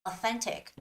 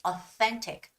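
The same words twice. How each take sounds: No difference in how they are said.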